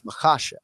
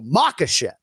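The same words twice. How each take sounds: First: The stress is on the second syllable. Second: The stress is not on the second syllable. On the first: The speaker calls it right. "just hit that second syllable" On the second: The speaker calls it wrong. "people just want to go Makashev"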